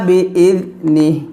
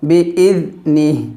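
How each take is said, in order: No difference in how they are said.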